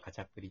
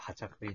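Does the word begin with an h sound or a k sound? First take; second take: k sound; h sound. First: The word begins with a k sound. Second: The word begins with an h sound. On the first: The speaker calls it wrong. "K を見た人 カチャプリって言っちゃう人も" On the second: The speaker calls it right. "読みは多分ハチャプリなんだよ"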